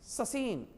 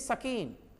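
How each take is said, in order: First: It begins with the s sound said twice. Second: It begins with an s followed by k. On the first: "ऐसा नहीं ना, सौ सौ बोलना है दो बार।" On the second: "ये नहीं"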